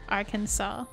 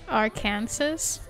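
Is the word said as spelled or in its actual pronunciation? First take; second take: actual pronunciation; as spelled. First: It is said in its actual pronunciation. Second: It is said the way it is spelled. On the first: The speaker calls it right. "it's actually pronounced Arkansas" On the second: The speaker calls it wrong. "the state is spelled like Arkansas"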